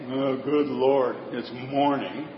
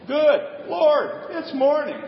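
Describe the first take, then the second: First: It sounds weary and dreading, like a groan. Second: It sounds glad and thankful, like a greeting.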